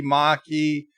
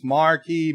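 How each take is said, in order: First: Maquis as R-less "mah-kee"; R dropped. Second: Marquis with an R, "mar-kee"; R sounded. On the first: Host argues there's no difference, Maquis as "mah-kee". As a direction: drop the R in Maquis. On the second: Host argues there's no difference, Marquis as "mar-kee". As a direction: keep the R in Marquis. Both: Shown as a demonstration. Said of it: "doesn't really make a difference".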